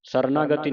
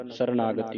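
First: ਸਰਨਾਗਤੀ broken into parts; wrong split reading. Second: ਸਰਨਾਗਤੀ run together as a single word; joined as one. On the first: Teacher shows what not to do, ਸਰਨਾਗਤੀ broken up. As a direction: split ਸਰਨਾਗਤੀ as "sarna-gati". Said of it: "ਸਰਨਾਗਤੀ ਨਹੀਂ ਪੜ੍ਹਨਾ". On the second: Teacher gives the correct reading, ਸਰਨਾਗਤੀ all joined. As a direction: say ਸਰਨਾਗਤੀ without any break. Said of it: "ਇਕੱਠਾ ਪੜ੍ਹਨਾ". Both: Shown as a demonstration.

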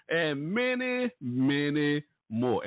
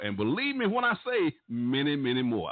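First: Drawn-out many. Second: Said in the usual way. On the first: Real, not acted. Emphatic list ending on the radio.

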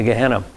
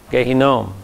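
First: Gehenna as guh-HEN-uh; anglicized name. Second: Gehinnom as gay-hee-NOHM; original Hebrew name. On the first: Teacher showing what the name became, Gehenna in anglicized pronunciation. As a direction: say Gehenna the English way, stress on the middle "hen". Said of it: "became anglicized into Gehenna". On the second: Teacher showing the name before it was anglicized, Gehinnom in Hebrew pronunciation. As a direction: say Gehinnom with a long, stressed final "nohm". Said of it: "that name became anglicized into Gehenna". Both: Shown as a demonstration.

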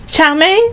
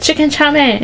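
First: Higher, rising question in a mock Asian accent. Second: Put-on higher-pitched order, slight Asian accent; hint of Asian accent. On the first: Imitating the worker checking the order, questioning Asian accent. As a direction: query "Chow mein" upward, light Asian accent. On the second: Retelling the food order, slight Asian accent. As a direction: recite the dish with a light Asian accent. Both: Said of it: "you had an Asian accent".

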